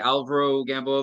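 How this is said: The name is said with an American pronunciation. "because we're in America, damn it. We're gonna speak American"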